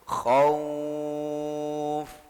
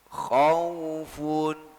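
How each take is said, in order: First: The word stops after the final 'f' sound. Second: The word ends with a full 'un' sound. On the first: The reader stops at this word. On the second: The reading continues without stopping.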